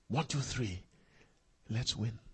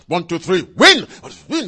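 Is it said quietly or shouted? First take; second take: quietly; shouted. First: It is said quietly and flatly. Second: It is shouted loudly and energetically.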